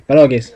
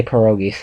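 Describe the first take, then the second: First: "pierogies" in a northeastern Pennsylvania accent, pə-ROH-geez. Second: "pierogies" said her way, puh-ROH-gee; plain "pierogies" from a different region; her own way. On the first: Showing a friend his Pennsylvania pierogies. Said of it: "That's how I say it". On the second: Answering his Pennsylvania pierogies with her own. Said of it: "And I say pierogies". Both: Shown as a demonstration.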